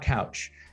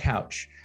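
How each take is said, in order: First: It sounds just like the furniture word. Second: The same.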